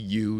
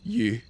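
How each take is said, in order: First: The word is said in a plain, simple way. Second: The word is said with a sonorous British vowel. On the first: "instead of saying just simply you" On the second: "kind of a sonorous use"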